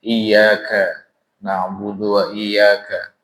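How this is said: The recitation stops after 'wa iyyaka'. The speaker calls it wrong. "berhenti, nggak boleh itu Pak"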